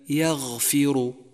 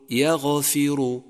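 First: The gh sound is held smoothly without a bounce. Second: The gh sound is released with a bouncing echo. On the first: The speaker calls it right. "وكذلك يغفر" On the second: The speaker calls it wrong. "وخطأ أن تقول يغفر"

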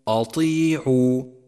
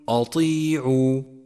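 First: The opening hamza is heavy and thickened. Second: The same.

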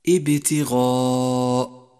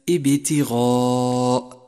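The two takes are said the same way.

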